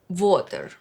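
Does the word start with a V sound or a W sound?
V sound. The word begins with a V sound.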